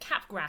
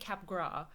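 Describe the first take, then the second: First: It is said with an anglicized pronunciation. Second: It is said with a French pronunciation. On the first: The speaker calls it wrong. "I've been pronouncing it Capgras syndrome" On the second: The speaker calls it right. "it's by a French guy. So it's definitely Capgras"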